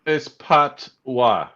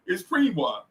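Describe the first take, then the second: First: PATOIS drawn out as PAHT, wah; correcting with a slow, spaced Patois; slow correction. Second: PREENWA said with an R, PREEN-wah; patois wrongly said as "Preenwa"; mispronounced patois. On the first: Shown as a demonstration. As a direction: say Patois very slowly, in two separate parts. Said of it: "I gotta speak slow". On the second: Real, not acted. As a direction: softly insist on Preenwa, long ee. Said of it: "there ain't no R in there".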